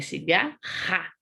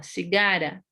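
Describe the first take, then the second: First: "cigarra" slowed, with a throaty h-like RR; "cigarra" with a guttural R; strong R. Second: "cigara" with a single tapped R; weak R. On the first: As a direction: stretch "cigarra" and rasp the final RR. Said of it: "esse som fique forte". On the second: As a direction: flick the R lightly in "cigara". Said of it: "o som é fraco". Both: Shown as a demonstration.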